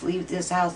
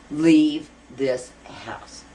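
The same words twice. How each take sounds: First: Said in the usual way. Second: Slow, louder order, word by word; retold command, heavily spaced and emphatic; imitated ghostly command. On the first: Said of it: "If a ghost comes to me and says". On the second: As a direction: draw out each word like a ghost's demand. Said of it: "somebody comes to me and says".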